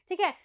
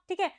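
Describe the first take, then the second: The two takes are said the same way.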